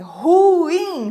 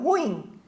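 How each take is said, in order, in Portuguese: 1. O u e o i formam duas sílabas separadas. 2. O u e o i se juntam numa sílaba só. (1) "É ruim, formando hiato" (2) "não ruim"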